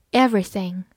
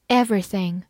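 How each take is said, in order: Both takes have the same delivery.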